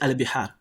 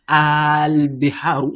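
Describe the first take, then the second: First: The first vowel is short. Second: The first vowel is drawn out long. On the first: It is a plain noun, not a question. "it is just al-bihar" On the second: It marks the start of a yes-no question. "prolong the pronunciation of the first letter"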